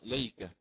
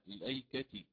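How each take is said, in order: First: The glottal stop is dropped, starting with l. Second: A glottal stop follows the silent l sound. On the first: "سيقرأ ليكة مثل ما هي محذوفة" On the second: "بلام ساكنة سبقت بهمز وصل وبعدها همز قطع مع كسر التاء، الأيكة هكذا"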